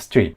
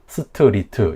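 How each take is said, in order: First: Consonants stay bare, making one syllable. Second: Vowels are added, making four syllables. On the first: The speaker calls it right. "이 네 음절이 아니라 그냥 스트리트, 그냥 이름절 단어예요" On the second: The speaker calls it wrong. "스트리트 이렇게 사음절로 발음을 하겠죠"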